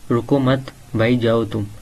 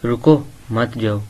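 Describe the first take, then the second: First: रुको मत run together, then भाई जाओ तुम; pause after मत. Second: रुको set apart, then मत जाओ together; pause after रुको. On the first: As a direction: break after "रुको मत", telling them to go. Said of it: "वही वर्ड है". (रुको मत एक साथ, फिर भाई जाओ तुम) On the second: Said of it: "word वही है लेकिन उनके डिफरेंट मीनिंग". (रुको के बाद ठहराव, फिर मत जाओ) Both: Shown as a demonstration.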